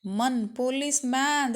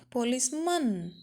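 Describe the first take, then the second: First: police ಮ್ಯಾನ್ with a full open ಮ್ಯಾನ್ like "man"; wrong way. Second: police ಮನ್ with a short weak ಮನ್, like "mun"; right way. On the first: Teacher showing students the wrong way to say it, full ಮ್ಯಾನ್. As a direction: stress the last part as ಮ್ಯಾನ್, wide vowel. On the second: Teacher giving students the correct police ಮನ್, weak ending. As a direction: reduce the last part to a quick ಮನ್. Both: Shown as a demonstration. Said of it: "that is wrong".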